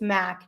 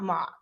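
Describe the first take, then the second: First: The vowel sounds like the one in 'back'. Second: The vowel sounds like the one in 'rock'. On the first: The speaker calls it right. "he said it's Mac" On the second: The speaker calls it wrong. "not Mock"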